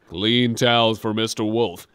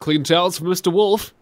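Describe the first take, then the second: First: It is said in a flat, uncaring tone. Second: It is said in an overly enthusiastic tone.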